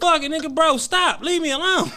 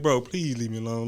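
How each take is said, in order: First: Snapped. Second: Soft, hushed begging, much quieter; pleading softly. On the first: Retelling the moment he snapped at his friend, yelling. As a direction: let it burst out, fed up. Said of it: "And then I snapped". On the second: Telling how he begged his friend to stop, soft plea. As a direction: beg gently like a little kid. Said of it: "I'm like". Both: Retold or imitated.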